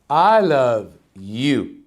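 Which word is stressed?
you. The stress falls on the word you. "emphasize in every different word of the sentence"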